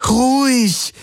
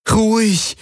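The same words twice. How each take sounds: First: Even higher, sharper "Ruhig!" with a fall; insistent, losing patience; more urgent plea. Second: Much higher, begging him to calm; a pleading "Ruhig" falling away. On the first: Kirai repeats the plea to the rearing beast, more urgent. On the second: Kirai pleads with the rearing beast, much higher. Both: A narrator's reading. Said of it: "flehte Kirai ihn an".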